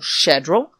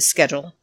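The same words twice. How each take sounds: First: It is said with a non-American pronunciation. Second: It is said with an American pronunciation. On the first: "as I say" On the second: "as Americans say"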